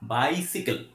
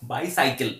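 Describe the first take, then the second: First: The second syllable sounds like 'sih'. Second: The second syllable sounds like 'sigh'. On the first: The speaker calls it right. "It's বাইসিকেল" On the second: The speaker calls it wrong. "আমরা বলি যে বাইসাইকেল, বাইসাইকেল, but প্রনাউন্সিয়েশনটা বাইসাইকেল নয়"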